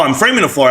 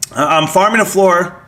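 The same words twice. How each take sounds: First: "framing" said properly as fr-aming, with the r right after the f; corrected word. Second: "farming" said instead of "framing", with the r right after the f; a slip that reads "framing" as "farming"; misread word. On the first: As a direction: fix the slip and say "framing" clearly. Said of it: "I'm sorry". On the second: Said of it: "Oh, I'm framing a floor, I'm sorry". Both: Real, not acted.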